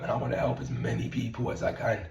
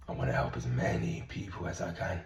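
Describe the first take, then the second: First: Said in the usual way. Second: Sincere low repeat. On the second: Real, not acted. Coach signing off to followers, low soft sincere repeat. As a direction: lower and softer, meaning every word.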